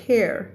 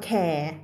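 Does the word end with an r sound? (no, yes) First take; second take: yes; no. First: It is said with a final r sound. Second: It is said Thai-style, with no final r. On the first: The speaker calls it right. "ภาษาอังกฤษต้องมี r" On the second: The speaker calls it wrong. "คำนี้ภาษาไทยอ่านว่า"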